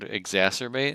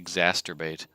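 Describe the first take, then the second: First: The middle is said as 'serb', the usual way. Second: The middle is said as 'sturb', like masturbate. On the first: The speaker calls it right. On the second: The speaker calls it wrong.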